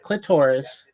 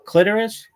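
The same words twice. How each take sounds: First: The stress is on the second syllable. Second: The stress is on the first syllable. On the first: The speaker calls it wrong. "not clitoris. It doesn't rhyme with thesaurus" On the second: The speaker calls it right. "It rhymes with almost like Icarus"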